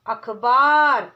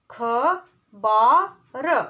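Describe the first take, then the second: First: अखबार said whole and firm; whole word. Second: अखबार drawn out very slowly; syllable by syllable. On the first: Teacher blending अखबार. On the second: Teacher sounding out अखबार. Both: Shown as a demonstration. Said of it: "चार वर्णों वाले शब्द".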